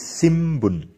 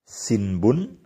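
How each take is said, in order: First: An m sound comes before the b. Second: An n sound comes before the b.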